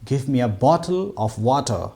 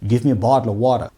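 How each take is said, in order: First: The t sounds are crisp and clearly stressed. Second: The t sounds are soft, almost like d. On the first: "ബ്രിട്ടീഷുകാർ പറയുമ്പോൾ കുറച്ചൊരു ടിന് നമ്മൾ stress ചെയ്യും" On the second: "അമേരിക്കക്കാർ പറയുമ്പോൾ ... ടി എന്നുള്ളതൊക്കെ ഡ് എന്ന അർത്ഥത്തിലാണ് പ്രൊനൗൺസ് ചെയ്യുക"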